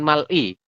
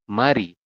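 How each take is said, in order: First: The middle consonant is an L sound. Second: The middle consonant is an R sound. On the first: The speaker calls it wrong. "Anda bacanya bukan mal'i" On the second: The speaker calls it right. "maka kita bacanya adalah mari, seperti ini"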